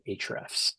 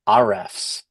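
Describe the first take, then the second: First: The opening A sound is left silent. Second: The opening A sound is pronounced aloud. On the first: The speaker calls it right. "most people uh, pronounce it Ahrefs. So they kind of uh, it's a silent A" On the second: The speaker calls it wrong. "we have had people call it Arefs, which made me laugh a lot"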